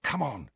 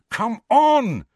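First: Soft, hushed urging; quiet. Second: High, loud urging call. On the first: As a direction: urge companions on under your breath. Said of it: "said Harry quietly". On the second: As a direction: urge hesitant companions on, loud and high. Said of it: "he urged the others". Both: A narrator's reading.

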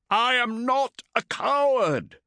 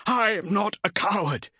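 First: Very high, loud, slow yell; defiant yell. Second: High, strained gasping denial; gasped plea. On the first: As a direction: roar it with final defiance. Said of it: "yelled Cestus". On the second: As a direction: gasp it out through pain. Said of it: "he gasped". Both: Acted.

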